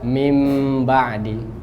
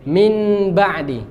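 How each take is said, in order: First: The first word ends in an m sound. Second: The first word ends in a clear n sound. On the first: The speaker calls it right. "Ubah nun menjadi mim. Maka mudah" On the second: The speaker calls it wrong. "Coba baca izhar. Ya, baca min ba'di, berat dia"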